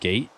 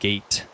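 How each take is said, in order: First: The final T is soft and barely released. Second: The final T is fully and clearly released. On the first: "I'm doing like a soft T" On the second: "instead of saying gate"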